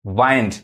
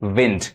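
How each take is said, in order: First: वाइंड with a long 'ai'; alternative pronunciation. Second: विंड with short 'i', as 'vind'; taught pronunciation. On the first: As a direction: say वाइंड like the verb 'wind'. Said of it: "verb के रूप में". (वाइंड में 'आइ' की आवाज़ बोलें) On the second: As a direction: say विंड like the noun 'wind'. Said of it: "noun के रूप में पढ़ेंगे". (विंड में छोटी 'इ' बोलें) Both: Shown as a demonstration.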